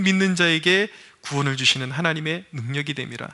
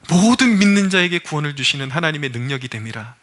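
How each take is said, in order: First: Said in the usual way. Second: 모든 punched, then the verse driven home; stress on 모든. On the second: Acted. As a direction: lean on 모든 as you repeat the verse. Repeats the verse for emphasis.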